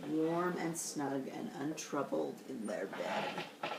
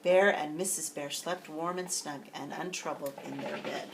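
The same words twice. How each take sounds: First: Softer, slow and tender; reading to kids, softly repeating the cozy line; cozy hush. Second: Said in the usual way. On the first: A narrator's reading. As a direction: lull it like a bedtime line.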